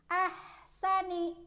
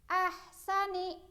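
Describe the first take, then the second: No difference in how they are said.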